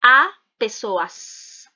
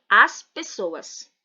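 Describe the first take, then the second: First: "a pessoas" with no S on the article "a"; incorrect plural. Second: Said in the usual way. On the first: Shown as a demonstration. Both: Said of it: "Eu não posso dizer".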